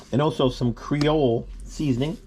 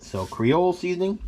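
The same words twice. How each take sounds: First: Said in the usual way. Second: Creole said as kree-ole, E silent; Creole pronunciation. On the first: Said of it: "You pronounce it Creole". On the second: Shown as a demonstration. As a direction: say Creole with no final E sound. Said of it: "You pronounce it Creole. The E at the end is silent".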